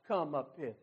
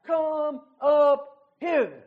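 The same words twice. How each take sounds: First: Lower, much softer come up hither; quiet, low come up hither; hushed call of Christ. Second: Loud, slow come up hither; crying out. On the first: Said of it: "that voice cries out". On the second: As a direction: come up hither drawn out very slowly, louder. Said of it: "he cries out". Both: Acted.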